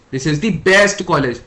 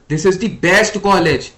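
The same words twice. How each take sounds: First: Best pressed harder and louder, said slowly; stress on best. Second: Said in the usual way. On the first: Shown as a demonstration. Teacher demonstrating emphasis to students, stress on best. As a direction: lean into the word best to show its importance. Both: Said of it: "यहाँ पे मैं बेस्ट पे emphasis दे रहा हूँ".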